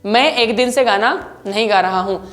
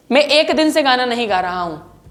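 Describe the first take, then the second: No difference in how they are said.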